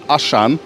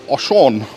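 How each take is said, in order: First: The name is said with an English pronunciation. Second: The name is said with a French pronunciation. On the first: The speaker calls it wrong. "when I called it Auchan" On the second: The speaker calls it right. "in French you say Auchan, and you've got to almost have that French accent"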